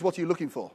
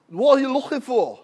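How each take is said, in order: First: Said in the usual way. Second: Thick mock Scouse question; old Liverpool man's accent. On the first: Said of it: "That means". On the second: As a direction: do a tiny bit of broad Liverpool. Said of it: "try and do his accent".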